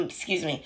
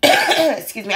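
First: Muttered apology. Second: Said in the usual way. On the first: Real, not acted.

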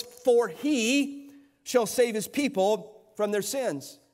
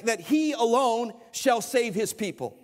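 First: Slow, weighty reading with HE leaned on; deliberate scripture reading with emphatic "he"; stress on he. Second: Slow, leaning hard on "he alone"; preacher spelling out who saves; emphatic he alone. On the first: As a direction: linger on every word, press "he". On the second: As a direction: press "he" and stretch out "alone". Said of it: "It means that in the emphatic". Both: Shown as a demonstration.

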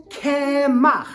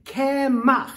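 First: Kemach called out louder, KEH-mach with a throaty ch; loud Hebrew word. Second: Kemach drawn out slowly, KEH-mach with a throaty ch; slow Hebrew word. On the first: Teacher calls out Kemach louder for kids to repeat. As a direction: call Kemach out for the kids to echo. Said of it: "Let's try it again". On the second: Teacher slowly models kemach for children to repeat. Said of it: "everybody say at the count of three". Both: Shown as a demonstration.

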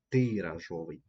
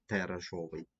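First: "тиражовий" with a clear Y sound, И, in the first syllable; corrected first vowel. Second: "тиражовий" with an E sound in the first syllable; misspelt first vowel. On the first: Teacher corrects the spelling for pupils, "тиражовий" with clear И. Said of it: "слово, яке перевіряє". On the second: Teacher reads the misspelt word to pupils, "тиражовий" with E. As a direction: say "тиражовий" as if written "теражовий". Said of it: "що буде тиражовий". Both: Shown as a demonstration.

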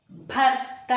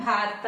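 First: Said in the usual way. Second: భార్త with a long 'aa' after bh; long first vowel. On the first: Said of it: "భర్య భార్త అని రాయకూడదు". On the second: Shown as a demonstration. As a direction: say భార్త as bhaar-ta. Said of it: "భాకి దీర్ఘం మాత్రమే పెట్టాలి".

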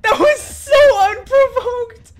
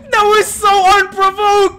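First: Slower, higher laughing wail; laughing scream. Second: Slow, high laughing shriek; laughing scream. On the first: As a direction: drag it out even more, laughing. Repeat, more stretched. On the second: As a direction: stretch it out through laughter. Laughing at sudden kill. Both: Real, not acted.

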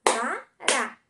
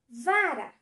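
First: "Vara" broken into Va - ra, both punched; two loud separate beats on "Vara"; syllable by syllable. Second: Said in the usual way. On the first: Shown as a demonstration. Teacher counts syllables for pupils, "Vara" split into Va, ra. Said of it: "Duas sílabas". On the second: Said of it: "Vamos lá".

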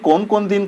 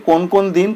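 No difference in how they are said.

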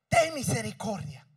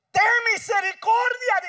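First: Said in the usual way. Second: Loud, high cry for mercy; desperate plea. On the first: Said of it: "esto conmueve a Jesús". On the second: Acted. Woman crying out to Jesus, loud high plea. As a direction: beg at the top of the voice. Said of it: "dice ella".

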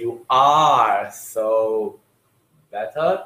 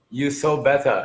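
First: "are" drawn out very slowly, stretched; stress on are. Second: Said in the usual way. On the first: Shown as a demonstration. Teacher correcting a student, stretching the missing "are". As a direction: lean hard on "are", dragging it out. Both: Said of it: "you have to say".

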